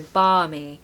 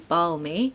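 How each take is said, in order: First: No L sound is pronounced in the word. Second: An L sound is pronounced in the word. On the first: The speaker calls it right. "Don't pronounce the L" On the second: The speaker calls it wrong. "it looks like it should be balmy, but it's not"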